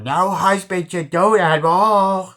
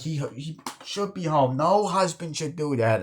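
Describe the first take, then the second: First: High, very loud goofy wail; Adam Sandler. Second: Higher, plaintive worried-wife imitation; Adam Sandler soundalike. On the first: Retold or imitated. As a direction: blow the line up into a comic holler. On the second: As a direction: imitate a fretting wife in a raised pitch. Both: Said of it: "that sounds like Adam Sandler".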